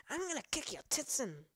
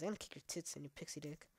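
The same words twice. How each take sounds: First: The threat again, pitched higher and hammed up; mock rage at the monster, higher. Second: Mock threat. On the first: Gamer mock-threatens an enemy, pitched higher and hammed up. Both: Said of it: "I'm over-exaggerating".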